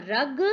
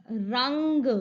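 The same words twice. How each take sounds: First: Said in the usual way. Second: रंग with a long ng before ग; nasal anusvara. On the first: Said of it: "जिन पर नहीं लगा है". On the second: Shown as a demonstration. Teacher adds the anusvara to the word, रंग with held nasal. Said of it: "र पर अनुस्वार लगाया".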